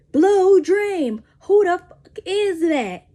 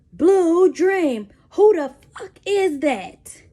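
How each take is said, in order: First: Loud, much higher, slow repeat of the demand; mock angry interrogation, again. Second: Loud, much higher, slowed demand; mock angry interrogation. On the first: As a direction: press harder like a jealous interrogator. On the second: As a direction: bark it like a jealous interrogator. Boyfriend interrogating her, bottle mic.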